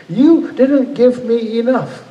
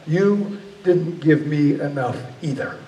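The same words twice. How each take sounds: First: High, loud, drawn-out accusation; retold raw fury. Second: Slow, measured comeback at ordinary pitch; God's stern retort. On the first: Dreamer accuses God of shortchanging him, in retold raw fury. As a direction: hurl it slowly, every word forceful. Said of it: "just raw fury". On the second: Retold or imitated. God grabs the dreamer by the throat, retorting slowly and sternly. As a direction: answer back deliberately, without raising the voice. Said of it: "He grabbed me by the throat".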